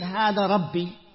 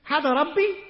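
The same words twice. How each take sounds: First: It is said as a flat, firm statement. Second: It is said as a searching, questioning remark. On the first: It declares that this is my Lord. The speaker calls it wrong. "he's not saying" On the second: It asks whether this could be my Lord. The speaker calls it right. "almost for them to think and to reflect"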